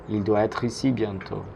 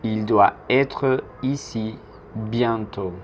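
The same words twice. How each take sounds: First: Said in the usual way. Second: Slow French sentence, pausing between word groups; slow model. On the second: Shown as a demonstration. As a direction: model it slowly for learners to repeat.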